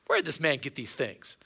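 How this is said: It sounds doubtful and contemptuous. The listeners are dismissive and offended by him. "Or, ... it's the latter"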